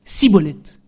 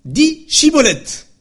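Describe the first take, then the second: First: "Cibolette" with a plain s, a touch louder; failed Shibboleth. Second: High slow testing challenge; stretched, high "Chibolette" like a guard testing; Shibboleth test word. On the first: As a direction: mispronounce "Cibolette" without the sh. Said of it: "les gens d'Éphraïm disent". (« Cibolette » avec un s au lieu du ch) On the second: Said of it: "On dit". (« Chibolette » dit lentement et haut, en guise de test) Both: Retold or imitated.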